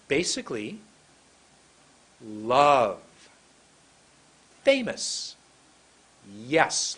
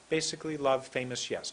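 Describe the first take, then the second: First: BASICALLY, LOVE, FAMOUS, YES each launched separately, swooping; big intonation. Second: Said in the usual way. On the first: Shown as a demonstration. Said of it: "But if I go like this". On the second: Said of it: "Let's do it old way".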